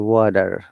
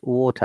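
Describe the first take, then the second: First: The T is flapped, sounding like a D. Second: The T is a strong, crisp T. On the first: This is the American pronunciation. "they say water" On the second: This is the British pronunciation. "we pronounce water"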